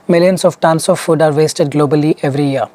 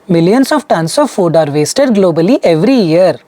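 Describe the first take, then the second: First: The pitch stays fairly steady and even. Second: The pitch goes up and down a lot. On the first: The speaker calls it right. "This is how you would speak" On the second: The speaker calls it wrong. "So this is intonation. ... the pitch graph at the bottom is all up and down"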